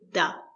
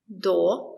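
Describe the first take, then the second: First: The vowel sounds like a short 'a'. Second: The vowel sounds like a full 'o'. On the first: The speaker calls it right. "We say da. Because it's not stressed" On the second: The speaker calls it wrong. "We don't say do"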